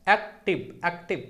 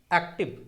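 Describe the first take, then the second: First: "active" split as ऐक-टिव with a minor gap; very brief break before टिव in "active"; pause inside word. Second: Said in the usual way. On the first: Shown as a demonstration. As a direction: repeat "active" in two separate beats. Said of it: "थोड़ा सा pause ले रहा हूँ". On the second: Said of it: "जैसे".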